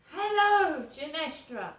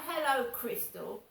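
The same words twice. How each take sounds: First: High drawn-out Hello, then Genestra; imitating mum's bright Hello, pitched up and loud; mum's sing-song greeting. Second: Said in the usual way. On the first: Imitating mum greeting her daughter on the phone, high sing-song. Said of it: "Not, "Hello, Crystal".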